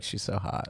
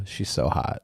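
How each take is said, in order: First: Put-on low creaky teen girl fry; vocal fry. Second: Put-on vocal fry teen girl; lightly voiced high school girl. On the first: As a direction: drag the words in vocal fry. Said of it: "just a little vocal fry". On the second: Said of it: "sound like a high school girl when you say it".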